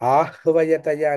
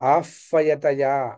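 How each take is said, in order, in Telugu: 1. మధ్య హల్లును 'hv' అని పలుకుతారు. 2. మధ్య హల్లును 'f' అని పలుకుతారు. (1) "కొంతమంది ఆహ్వయతయ అని పలుకుతారు" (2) "మామూలుగా వైదికంగా ఆఫయతయా అని పలుకుతారు"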